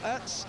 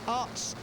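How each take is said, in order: First: The surname is pronounced in a German style. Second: The surname is pronounced in a Dutch style. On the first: The speaker calls it wrong. "I'm pronouncing it with the more German uh, pronunciation" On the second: The speaker calls it right. "as uh, the Belgians pronounce it"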